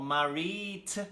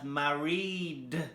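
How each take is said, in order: First: The ending is not pronounced as a D sound. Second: The ending is pronounced as a D sound. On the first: The speaker calls it wrong. "We don't do married" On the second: The speaker calls it right. "married with the D sound"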